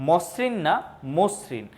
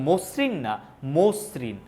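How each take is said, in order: The two takes are said the same way.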